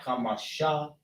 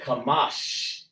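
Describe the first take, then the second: First: The word ends with an extra vowel sound. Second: The word ends on the final consonant. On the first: The speaker calls it wrong. "not Kamasha" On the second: The speaker calls it right. "We want to say Kamash"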